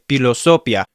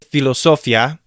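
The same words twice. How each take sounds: First: The first sound is a p sound. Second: The first sound is an f sound. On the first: The speaker calls it right. "it's better to say philosophia" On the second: The speaker calls it wrong. "You don't say philosophia"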